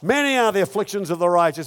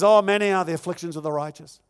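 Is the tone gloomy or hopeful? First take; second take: hopeful; gloomy. First: It is read in a plain, hopeful tone. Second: It is read in a gloomy, mournful tone.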